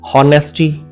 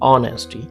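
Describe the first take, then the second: First: The word begins with an h sound. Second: The word begins with a vowel, h silent. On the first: The speaker calls it wrong. "हॉनेस्टी नहीं" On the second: The speaker calls it right. "It's ऑनेस्टी"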